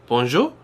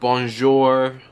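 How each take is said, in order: First: It is said with a more French accent. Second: It is said with an American accent.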